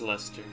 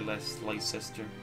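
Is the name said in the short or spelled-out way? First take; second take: short; spelled-out. First: The name is said the short, local way. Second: The name is sounded out from its spelling. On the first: This is how people from the city say it. The speaker calls it right. "It's Leicester. That's how you say it, the English city" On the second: This is a guess by someone who never heard it. The speaker calls it wrong. "most people would say Leicester if they never heard it before"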